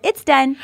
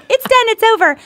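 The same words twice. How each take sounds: First: Said in the usual way. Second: High, loud and triumphant; excited declaration. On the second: Retold or imitated. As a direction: announce it with glee. Triumphant retelling of her answer.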